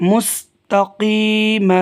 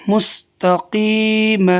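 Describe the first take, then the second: No difference in how they are said.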